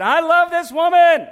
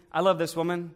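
First: Loud, high, slow proclamation of love; husband shouting his love across the restaurant; public declaration. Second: Said in the usual way. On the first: Acted. In a restaurant, husband tells everyone he loves her: loud, high, drawn out.

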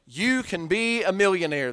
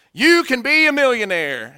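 First: Said in the usual way. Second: "You can be a millionaire." belted higher and louder, hammed-up seminar hype; loud pitchman. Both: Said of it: "that was his spiel".

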